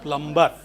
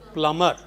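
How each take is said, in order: First: The b sound is clearly pronounced. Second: The b sound is left silent. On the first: The speaker calls it wrong. "we know how people outside pronounce this" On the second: The speaker calls it right. "The correct pronunciation is plumber. Be silent"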